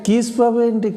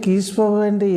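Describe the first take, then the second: Both takes have the same delivery.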